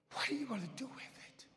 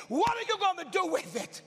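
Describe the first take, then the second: First: Softer, quick and whispered; intense whisper. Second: Loud and high, booming the question; God's shouted challenge. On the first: Acted. Preacher pressing his congregation, urgent whisper. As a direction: lean in and hiss the question. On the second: Retold or imitated. God challenging the preacher in his dream, booming. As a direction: call it out like a command.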